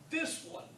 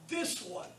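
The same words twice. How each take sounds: The two takes are said the same way.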